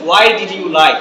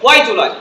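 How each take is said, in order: First: "Why did you lie" with every word sounded; slower learner pronunciation. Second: "Why do you lie" as why-julai; fuse "do you" into ju in "Why do you lie"; native linking. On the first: Teacher shows how we say it, full "Why did you lie". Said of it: "slowly বলি". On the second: Teacher answers what natives say, linked "Why do you lie". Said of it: "নেটিভরা কি বলে?". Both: Shown as a demonstration.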